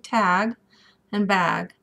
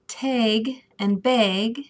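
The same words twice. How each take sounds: First: It is said with a standard American accent. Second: It is said with a Minnesota regional accent. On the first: The speaker calls it right. "supposed to be tag and bag" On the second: The speaker calls it wrong. "I come from Minnesota originally, and so tag and bag is a normal thing"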